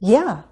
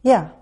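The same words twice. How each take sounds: First: The pitch rises first and then falls. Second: The pitch falls steadily to the end. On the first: The speaker agrees enthusiastically and is happy to help. "The second one is affirmative but with enthusiasm. It uses a rise-fall" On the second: The speaker is certain and agrees. "This first response sounds certain. It uses falling intonation"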